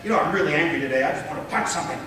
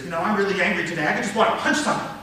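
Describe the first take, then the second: First: Quick demonstrated anger, held level; restrained mock anger, rattled off; angry, first take. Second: Fast anger rising at the end; heated demo of believable anger; convincingly angry. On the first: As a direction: say it angrily but keep the pitch down. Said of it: "my voice is suggesting something else". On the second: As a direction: fire it off angrily, climbing to a peak. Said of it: "Now you believe me. Now maybe you're afraid of me". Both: Shown as a demonstration.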